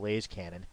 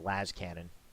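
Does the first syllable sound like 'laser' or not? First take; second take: like laser; not like laser. First: The first syllable sounds like the start of 'laser'. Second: The first syllable does not sound like 'laser'. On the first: "For me, it's laser cannon, truncated to Lays cannon" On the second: "I hear a lot of people pronounce it Las cannon"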